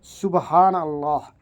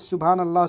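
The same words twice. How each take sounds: First: It is recited slowly and carefully. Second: It is recited quickly and hurriedly.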